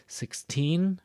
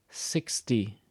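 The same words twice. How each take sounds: First: Put-on "Sixteen" with "teen" high and strong; stress on teen. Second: "sixty" starting on "six" and falling; stress on six. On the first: Teacher contrasting numbers, lifting "teen" in "Sixteen". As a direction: push the pitch up on "teen" in "Sixteen". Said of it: "notice the stress is here". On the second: Teacher contrasting numbers, letting "sixty" fall. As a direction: drop the voice down through "sixty". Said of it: "I kinda go down". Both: Shown as a demonstration.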